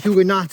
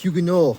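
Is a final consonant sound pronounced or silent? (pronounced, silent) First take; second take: pronounced; silent. First: The final consonant sound is pronounced. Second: The final consonant sound is left silent. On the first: The speaker calls it wrong. "it's not Huguenot" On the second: The speaker calls it right. "you don't say the second half of the word"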